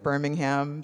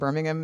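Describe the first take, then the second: First: The name is said the American way. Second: The name is said the local British way. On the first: The speaker calls it wrong. "instead of" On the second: The speaker calls it right. "my accurate pronunciation"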